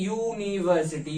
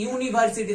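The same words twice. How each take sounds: First: ইউনিভার্সিটি drawn out slowly, leaning on the opening ইউ; teacher slowly sounding out ইউনিভার্সিটি; slow sounded-out word. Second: Said in the usual way. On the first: Shown as a demonstration. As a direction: stretch ইউনিভার্সিটি so the starting ইউ sound is heard. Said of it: "উচ্চারণটা একটু দেখি". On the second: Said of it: "কিন্তু এর উচ্চারণটা দেখি".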